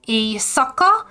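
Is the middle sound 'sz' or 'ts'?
sz. The middle is said with a plain s sound.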